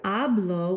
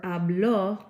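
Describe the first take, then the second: First: Hablo stressed on HA, ending o unstressed; HAblo, lean on the first syllable. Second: Habló with the stress on the final ló, slow and louder; stress on last syllable. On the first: Teacher contrasting hablo with habló, stress on HA. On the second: Teacher contrasting habló with hablo, final stress slow. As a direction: drag out and punch the final ló in habló. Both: Shown as a demonstration. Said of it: "the difference between saying something like hablo".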